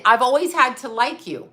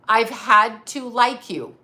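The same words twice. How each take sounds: First: Said in the usual way. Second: "had" leaned on, whole line slowed; stress on had. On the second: Shown as a demonstration. Telling her ex she always had to put up with him, "had" stressed. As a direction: lean on "had" slowly, bitter.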